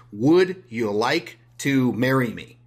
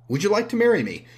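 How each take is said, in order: First: Slow, deliberate marriage proposal; mock proposal. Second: Higher, louder, pleading repeat; desperate mock proposal. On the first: To a stranger he never met, slow mock proposal. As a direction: ask it slowly, like a stranger proposing too soon. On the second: Repeating the proposal to a stranger, high desperate plea. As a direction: beg the question again, much higher.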